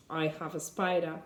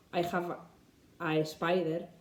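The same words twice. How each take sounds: First: Said in the usual way. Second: "spider" said as "espider", Spanish learner mistake; wrong version, lightly Spanish accent. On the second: Shown as a demonstration. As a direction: imitate an E before "spider".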